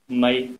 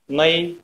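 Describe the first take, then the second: First: The word is drawn out a little longer. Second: The word is said on a slightly higher tone. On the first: Tail. "Little bit longer" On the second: Middle. "little bit higher"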